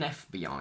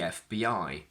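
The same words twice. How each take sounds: First: The stress is on the first letter. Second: The stress is on the last letter. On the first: "the stress shifts to the front" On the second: "The stress is on the last letter"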